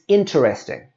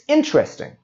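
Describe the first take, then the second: First: The middle vowel is sounded as a syllable. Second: The middle vowel is dropped from the word. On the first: The speaker calls it wrong. "we don't say it's interesting" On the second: The speaker calls it right. "We say it's interesting"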